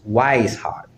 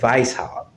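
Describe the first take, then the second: First: The name begins with a W sound. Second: The name begins with a V sound. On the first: The speaker calls it wrong. "when they don't pronounce the name as if it is German" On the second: The speaker calls it right. "the W, when it is in German, is pronounced with the letter V"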